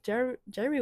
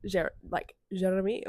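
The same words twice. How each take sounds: First: Said in the usual way. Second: Imitating Jean's accent on Jeremy; a light go at Jean's accented Jeremy. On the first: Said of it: "what Jean's accent would be". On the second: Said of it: "in his accent".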